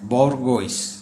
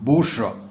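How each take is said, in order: First: It ends with a hard g and 'oyce'. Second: It ends with a soft 'zhwa' sound. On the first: The speaker calls it wrong. "ഇത് ബോർഗോയ്സ് അല്ല" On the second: The speaker calls it right. "ഇതിൻ്റെ ഉച്ചാരണം ബൂർഷ്വ"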